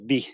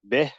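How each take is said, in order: First: The vowel is a full, pure i sound. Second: The vowel is reduced and muddied, not fully i. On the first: The speaker calls it right. "go bi" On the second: The speaker calls it wrong. "rather than going uh"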